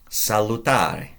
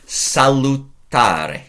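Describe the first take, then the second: First: Said in the usual way. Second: Salutare drawn out slowly, syllable by syllable; teacher modelling salutare slowly; slow model word. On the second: Shown as a demonstration. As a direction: stretch out salutare for the class to copy.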